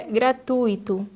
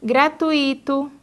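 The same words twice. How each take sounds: First: Gratuito stressed on TU, ui as one sound; correct stress. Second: Gratuito drawn out slowly as gra-tu-Í-to; wrong stress. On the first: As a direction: hit tui in gratuito. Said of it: "o correto é gratuito". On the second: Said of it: "quando o correto é gratuito". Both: Shown as a demonstration.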